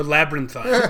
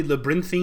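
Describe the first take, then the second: First: "labyrinthine" said LAB-rin-thine, rhyming with "fine"; "thine" pronunciation. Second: "labyrinthine" said lab-uh-RIN-thee-un, with a "thee" ending; labyrinthian pronunciation. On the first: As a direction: end "labyrinthine" in a long "eye" sound plus n. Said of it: "we like to say a labyrinthine". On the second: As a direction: stress the middle of "labyrinthine" and end it in "thee". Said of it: "isn't it technically labyrinthine". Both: Shown as a demonstration.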